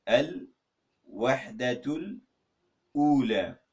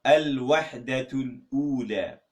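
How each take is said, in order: First: Al-Wahdatul drawn out very slowly, then Ula; syllable by syllable. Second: Al-Wahdatul Ula said slowly and clearly in Arabic; Al-Wahdatul Ula spelled out in careful Arabic sounds; Arabic title. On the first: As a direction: break Al-Wahdatul Ula into two slow parts. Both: Shown as a demonstration. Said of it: "let me say it".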